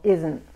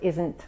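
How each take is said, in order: First: The final t is barely heard. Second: The final t is clearly pronounced. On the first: The speaker calls it right. "no pronunciamos mucho la T" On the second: The speaker calls it wrong. "no es isn't"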